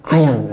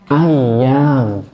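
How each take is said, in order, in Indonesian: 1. Kata ini diucapkan dengan vokal pendek. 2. Kata ini diucapkan dengan vokal panjang. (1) "Kalau dibaca pendek" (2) "Apa bahasa Arabnya hari?"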